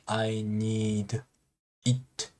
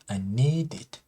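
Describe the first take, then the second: First: The D and 'it' are said apart. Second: The D runs straight into 'it'. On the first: The speaker calls it wrong. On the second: The speaker calls it right. "consonant plus vowel sound"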